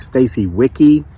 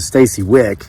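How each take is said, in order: First: The surname has two syllables, ending in 'ee'. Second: The surname has one syllable, ending in 'k'. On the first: The speaker calls it wrong. "I did mispronounce her name" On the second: The speaker calls it right. "It's supposed to be with a just a Stacy Wick"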